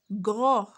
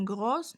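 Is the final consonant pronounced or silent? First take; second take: silent; pronounced. First: The final S sound is silent. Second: The final S sound is pronounced. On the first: The speaker calls it right. "On dit gros. Le S se prononce pas" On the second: The speaker calls it wrong. "On ne dit pas grosse"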